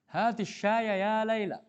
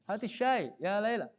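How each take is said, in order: First: The words run together without a break. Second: There is a short break after 'shay'.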